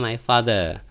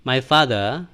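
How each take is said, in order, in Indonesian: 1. Father diucapkan dengan bunyi th lembut. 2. Father diucapkan dengan bunyi th lembut.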